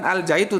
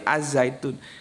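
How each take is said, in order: First: The article is said as a plain 'al'. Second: The article blends into the z sound. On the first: The speaker calls it wrong. "bukan Al Zaitun" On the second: The speaker calls it right. "tapi Az Zaitun"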